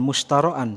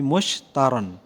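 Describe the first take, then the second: First: An extra vowel sound comes before the final ending. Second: No extra vowel sound comes before the ending. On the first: The speaker calls it wrong. "Jadi bukan mushtaroan" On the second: The speaker calls it right. "tetapi mushtaron. Harful ilahnya itu tidak diharakati"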